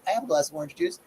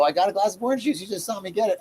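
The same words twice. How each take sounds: First: Said in the usual way. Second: Put-on higher, cheeky five-year-old talking back; sassy child comeback. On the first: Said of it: "I was like". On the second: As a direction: snap back like a smart-mouthed kid. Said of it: "I didn't say that".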